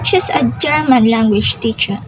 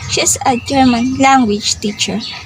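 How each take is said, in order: First: The word German is stressed. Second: The word language is stressed. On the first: She is a language teacher from Germany. "the word German is the word is the one with stress" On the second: She teaches the German language. "The stress on language"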